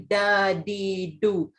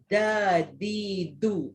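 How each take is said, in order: First: The d sounds like a plain Malay d. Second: The d sounds soft and lisp-like. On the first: The speaker calls it wrong. "Dia tak boleh sebut macam orang Melayu sebut huruf D" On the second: The speaker calls it right. "sebutan huruf dal yang betul macam orang pelat"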